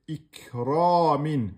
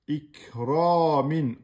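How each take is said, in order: Both takes have the same delivery.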